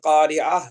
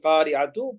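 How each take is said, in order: First: The word ends with a soft 'h' sound. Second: The word ends with a 'tu' sound. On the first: The reading stops on this word. "நான் இஹு சவுண்ட்ல நிப்பாட்டுறேன்" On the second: The reading continues on to the next word. "சேர்த்து ஓதுனா தூ போடணும்"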